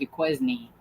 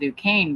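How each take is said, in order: First: It is said the way the spelling suggests. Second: It is said the way locals say it. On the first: This is how the name looks when read. The speaker calls it wrong. "it looks like Duquesne" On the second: This is the town's real name. The speaker calls it right. "it's called Duquesne"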